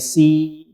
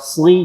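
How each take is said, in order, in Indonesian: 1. Bunyi s-nya adalah s yang ringan dan biasa. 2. Bunyi s-nya berat dan bertekanan. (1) "jadi si" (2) "yang sli shad kasrah"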